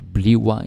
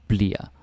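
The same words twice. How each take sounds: First: The word is said in full with two syllables. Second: The word is shortened to one syllable, blir. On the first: "Bliver, yeah, sometimes" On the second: "we pronounce it bliver, like kind of like um, like this, B L I R"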